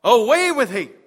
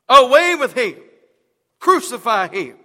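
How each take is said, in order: First: Loud, higher shout of the mob; crowd shouting. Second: Much louder, higher yell; furious mob shout. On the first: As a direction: yell it like an angry crowd. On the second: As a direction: scream it, the mob at full force. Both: A narrator's reading. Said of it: "they cried out".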